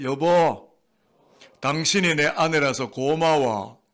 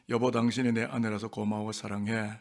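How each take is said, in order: First: Slow, drawn-out declaration of affection; affectionate, not dry. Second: Said in the usual way. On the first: Shown as a demonstration. Preacher coaching husbands to thank their wives, affectionate, not dry. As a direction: stretch it out with feeling for others to echo. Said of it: "드라이하게 이야기하세요?". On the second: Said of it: "경상도 버전".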